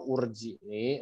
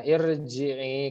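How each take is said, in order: First: The word begins with a u vowel. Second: The word begins with an i vowel. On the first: The speaker calls it wrong. "atau urji'i" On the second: The speaker calls it right. "dibacanya irji'i"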